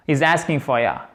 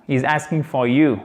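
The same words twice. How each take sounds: First: "ya" said as an open yah; colloquial reduced you. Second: "you" with its full oo vowel; careful standard English. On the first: Teacher shows how you transforms, casual "ya". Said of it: "il se transforme en ya". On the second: Teacher models good English, full "you". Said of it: "en bon anglais". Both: Shown as a demonstration.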